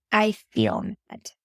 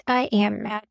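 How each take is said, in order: First: Slow, with "feel" leaned on; stress on feel. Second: Said in the usual way. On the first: Shown as a demonstration. Mom modeling the right phrasing, slow with "feel" stressed.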